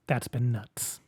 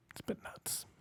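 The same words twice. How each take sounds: First: Said in the usual way. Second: Breathy whispered repeat. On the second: Shown as a demonstration. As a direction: drop to a whisper.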